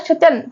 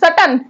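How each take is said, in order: First: It starts with a sh sound, like 'shun'. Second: It starts with an s sound, like 'sutton'. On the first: The speaker calls it right. "शचन होता है बेटा" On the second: The speaker calls it wrong. "बच्चे पढ़ रहे थे सटन, सटन। ये सटन नहीं होता है"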